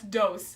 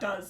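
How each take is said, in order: First: The vowel is long, rhyming with close. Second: The vowel is short, rhyming with buzz. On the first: The speaker calls it wrong. "That's dose" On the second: The speaker calls it right. "That's not does"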